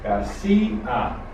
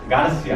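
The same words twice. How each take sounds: First: The final i and a form two syllables. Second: The final i and a merge into one syllable. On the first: The speaker calls it right. "we carry an accent to break the diphthongo" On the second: The speaker calls it wrong. "How should it be pronounced without the accent?"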